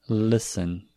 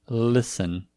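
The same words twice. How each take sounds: Both takes have the same delivery.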